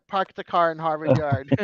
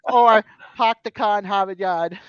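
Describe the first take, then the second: First: Said in the usual way. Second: "park the car in Harvard Yard" as "pahk the cah in Hahvahd Yahd", louder; Boston accent. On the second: Shown as a demonstration. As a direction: drop every R, Boston style. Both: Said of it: "You drop your R's is what you do".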